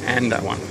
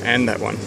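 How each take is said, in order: Both takes have the same delivery.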